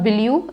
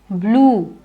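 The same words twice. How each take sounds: First: The vowel is kept short. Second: The vowel is stretched long. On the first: The speaker calls it wrong. "it's not blue" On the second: The speaker calls it right. "I stretch it"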